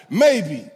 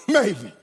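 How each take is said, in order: First: Said in the usual way. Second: Maybe with a laugh. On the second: Shown as a demonstration. Preacher admitting doubt, laughing maybe. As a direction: chuckle through Maybe.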